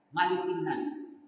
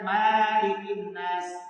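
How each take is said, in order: First: The vowel after the m is kept short. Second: The vowel after the m is drawn out long. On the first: The speaker calls it right. "tidak boleh mimnya dipanjangkan" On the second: The speaker calls it wrong. "Jangan dibacakan"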